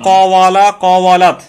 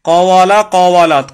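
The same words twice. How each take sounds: Both takes have the same delivery.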